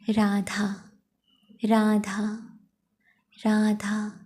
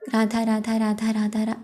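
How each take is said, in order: First: The name is repeated slowly, each syllable felt. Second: The name is repeated quickly, syllables running together. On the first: The name is felt and seen clearly. The speaker calls it right. "धीरे धीरे नाम जाप करें। अब जैसे कि मैं बोल रही हूँ" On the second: The name is rushed, as when in a hurry. The speaker calls it wrong. "ना कि ऐसे करनी ... ऐसे नहीं करना"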